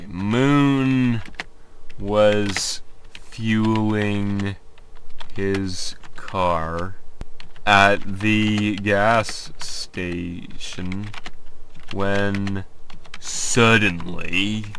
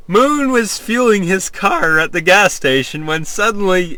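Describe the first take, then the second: First: Halting slow read. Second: Said in the usual way. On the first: Shown as a demonstration.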